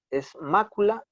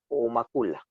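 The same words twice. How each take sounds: First: Mácula with the stress on the first syllable, MÁ-cu-la. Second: Macula with the stress moved to the second syllable, ma-CU-la; macula, misstressed on the middle syllable; wrong stress macula. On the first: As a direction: say mácula stressing the MÁ, a bit higher. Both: Shown as a demonstration. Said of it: "lleva tilde".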